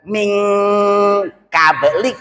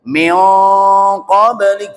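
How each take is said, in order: First: The n is pronounced as a clear n. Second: The n is hidden in a nasal sound. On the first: The speaker calls it wrong. "bukan min qablik" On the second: The speaker calls it right. "Mestinya ya miong langsung miong qablik"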